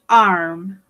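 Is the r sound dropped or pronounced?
pronounced. The r sound is clearly pronounced. "in American English"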